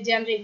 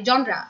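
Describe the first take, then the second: First: The first vowel is 'e', ending in 're'. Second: The first vowel is 'o', ending in 'ra'. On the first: The speaker calls it wrong. "অনেকে জানরে জেনরে বিভিন্ন" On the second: The speaker calls it right. "এটার উচ্চারণ তো সবাই জানি"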